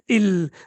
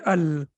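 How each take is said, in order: First: The word starts with an i vowel. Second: The word starts with an a vowel. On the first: The speaker calls it wrong. "we cannot say il" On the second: The speaker calls it right. "We have to say al"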